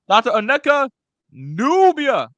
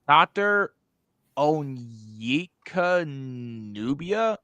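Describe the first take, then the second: First: It is read in a put-on cartoon character voice. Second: It is read in a natural, ordinary voice.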